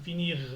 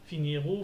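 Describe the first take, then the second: First: The word stops on the r, no vowel. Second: An extra ou vowel follows the final r. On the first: The speaker calls it right. "j'ai dit r. Je me suis arrêté" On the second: The speaker calls it wrong. "J'ai pas dit"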